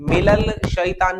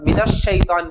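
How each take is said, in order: First: मिलल शैतान with a sounded L instead of the doubled SH; wrong reading shown. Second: मिनश शैतान with the SH doubled and no L; correct sun-letter reading. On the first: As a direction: say मिलल शैतान as the mistaken form. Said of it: "मिलल शैतान नहीं पढ़ते ना". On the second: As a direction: run मिनश into शैतान on one long SH. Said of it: "मिनश शैतान पढ़ते". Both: Shown as a demonstration.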